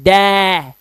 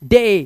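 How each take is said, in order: First: The vowel sounds like the 'a' in cat. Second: The vowel sounds like the 'ay' in say. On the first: The speaker calls it wrong. "इसका उच्चारण ये नहीं है डै" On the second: The speaker calls it right. "इसका उच्चारण डे है"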